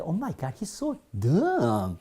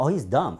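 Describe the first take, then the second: First: Oh my God, he's sooo dumb, stretched out; exasperated emphasis. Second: Said in the usual way. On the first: Shown as a demonstration. Teacher demos saying someone is really stupid, stretched out. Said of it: "정말 멍청하다 그럴 때". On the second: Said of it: "일반적으로 멍청하다".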